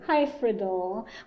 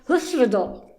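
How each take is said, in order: First: The word is said with an English pronunciation. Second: The word is said with a Welsh pronunciation. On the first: "in English they call it, we, we say Hyfrydol" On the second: "on some Welsh pronunciations and it's something more like"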